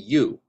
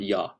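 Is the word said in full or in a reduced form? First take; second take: full; reduced. First: The word is said fully with a clear vowel. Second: The word is reduced with a weak vowel. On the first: The speaker calls it right. "If we enunciate ya, it would be you" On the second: The speaker calls it wrong. "not ya"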